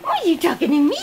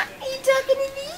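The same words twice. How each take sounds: First: Said in the usual way. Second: High, fast, soft cooing. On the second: Real, not acted. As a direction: squeak it fast at the puppy. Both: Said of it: "repeats line".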